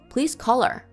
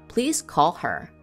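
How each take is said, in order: First: The H sound in her is dropped. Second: The H sound in her is pronounced.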